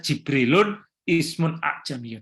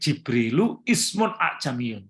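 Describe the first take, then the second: First: The first word ends with an added -un. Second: The first word ends in a plain -u vowel. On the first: The speaker calls it wrong. "Tidak bisa" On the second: The speaker calls it right. "Jadi enggak bacanya tadi"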